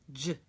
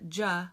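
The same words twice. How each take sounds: First: The consonant ends with no vowel after it. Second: A vowel sound follows the consonant. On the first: The speaker calls it right. "make sure we don't add the vowel" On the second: The speaker calls it wrong. "it's not J"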